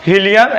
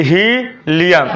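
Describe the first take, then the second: First: Said in the usual way. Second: helium with a long ही, pause, then Liam; very slowly break helium in two; syllable by syllable. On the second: Shown as a demonstration. (Helium को ही और Liam में तोड़कर) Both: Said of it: "syllable पर चलूँगा".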